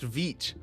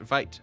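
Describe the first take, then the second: First: The vowel sounds like 'ee'. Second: The vowel sounds like 'eye'. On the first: The speaker calls it right. "It's pronounced vit" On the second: The speaker calls it wrong. "I've been pronouncing it vite"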